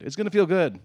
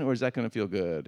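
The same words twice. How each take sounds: First: "It's gonna feel good" said louder, stress on "feel", falling firmly; emphatic answer. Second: Said in the usual way. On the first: Shown as a demonstration. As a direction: answer your own question with firm emphasis on "feel".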